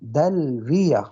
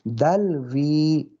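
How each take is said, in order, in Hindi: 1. अंतिम y के साथ छोटा a स्वर आता है। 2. लंबी 'ee' के बाद अंतिम y साइलेंट होता है। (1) "फ़तह भी दे सकते हैं" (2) "सुकून भी पढ़ सकते हैं"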